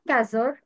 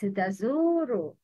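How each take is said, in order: First: The vowel after the z is cut short. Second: The vowel after the z is held long. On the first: The speaker calls it wrong. "It's not tazur" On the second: The speaker calls it right. "Make long vowel dhamma"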